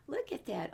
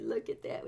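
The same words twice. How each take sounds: First: Said in the usual way. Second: Hushed whisper aside. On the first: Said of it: "said aloud after whisper". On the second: Shown as a demonstration. Reading to children, whispering a hushed aside. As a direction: whisper it like a secret. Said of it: "whispered aside to children".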